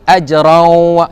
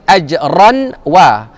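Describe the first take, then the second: First: The n merges into a nasal w. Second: The n is heard clearly before the w. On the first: The speaker calls it right. "tapi ajraw" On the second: The speaker calls it wrong. "jangan baca ajran wa"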